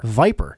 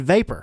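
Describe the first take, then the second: First: Vapor said as Viper in a southern twang, lower. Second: Said in the usual way. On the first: Shown as a demonstration. Reviewer jokes on the word vapor, in a southern twang. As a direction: drawl Viper like a Southerner, dropped low. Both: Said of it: "Throw a little southern twang in there".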